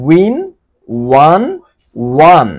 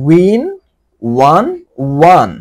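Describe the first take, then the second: Both takes have the same delivery.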